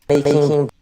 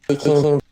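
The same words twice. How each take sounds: No difference in how they are said.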